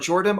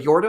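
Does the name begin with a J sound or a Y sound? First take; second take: J sound; Y sound. First: The name begins with a J sound. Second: The name begins with a Y sound.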